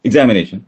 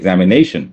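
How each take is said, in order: First: The stress is on the first syllable. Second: The stress falls on a later syllable. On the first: The speaker calls it wrong. "It's not" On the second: The speaker calls it right. "അതിന്റെ stress വരുന്നത് ആദ്യത്തെ സിലബിളല്ല"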